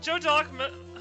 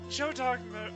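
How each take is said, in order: First: It is said in the speaker's normal voice. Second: It is said in a put-on mommy voice.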